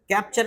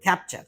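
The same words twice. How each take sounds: First: The first k has no puff of air. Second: The first k has a slight puff of air. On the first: The speaker calls it wrong. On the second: The speaker calls it right.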